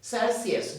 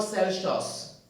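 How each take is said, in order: First: "Celsius" said as sel-see-es with s; "Celsius" the proper way; correct Celsius. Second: "Celsius" said as sel-shos, wrong; "Celsius" with sh, slowly. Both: Shown as a demonstration. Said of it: "not Celsius".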